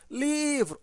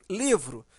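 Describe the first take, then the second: First: "livro" called out higher, LI drawn long; stress on LI. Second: Said in the usual way. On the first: Shown as a demonstration. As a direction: hold the first syllable of "livro" to show the stress. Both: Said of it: "o li é a sílaba mais forte".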